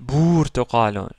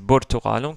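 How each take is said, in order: First: The first vowel is held long. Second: The first vowel is kept short. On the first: The speaker calls it wrong. "si c'était une voyelle longue, on aurait dit" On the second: The speaker calls it right. "Mais non, ici c'est burtuqalun"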